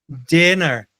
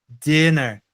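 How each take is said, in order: The two takes are said the same way.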